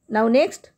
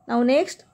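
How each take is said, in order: The two takes are said the same way.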